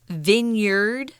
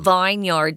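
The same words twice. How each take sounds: First: It is not pronounced as it is spelled. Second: It is pronounced just as it is spelled. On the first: The speaker calls it right. "We say vineyard" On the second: The speaker calls it wrong. "Notice we're not saying vineyard, guys. ... That's what it looks like"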